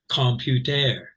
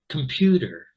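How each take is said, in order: First: All three syllables get equal stress. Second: The second syllable is stressed, others are reduced. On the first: The speaker calls it wrong. "all of the vowel sounds would be you know equal stress" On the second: The speaker calls it right. "This is the stress syllable"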